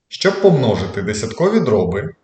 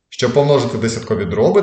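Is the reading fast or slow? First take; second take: slow; fast. First: It is read slowly, with pauses. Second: It is read quickly, without pauses. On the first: The speaker calls it right. "але вже повільніше" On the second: The speaker calls it wrong. "Я прочитав занадто швидко"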